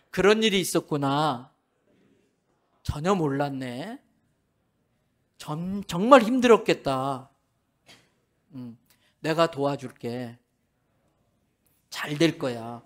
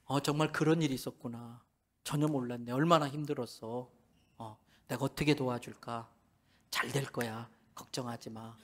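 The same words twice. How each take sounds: First: Gentle empathetic lines. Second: The same comforting lines fading softer and softer; getting quieter. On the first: Pastor leading men to repeat comforting words, gently. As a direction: soothe her like a patient husband. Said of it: "따라 하세요". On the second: Pastor mimics the men repeating, voices fading away quietly. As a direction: let each line sink softer, almost to nothing. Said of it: "점점 소리가 작아지고". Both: Shown as a demonstration.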